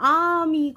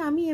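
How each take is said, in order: First: The word is said with exaggerated, wide mouth articulation. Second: The word is said casually with little mouth movement. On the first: "করে বলতে হবে" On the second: "এভাবেই বলবো"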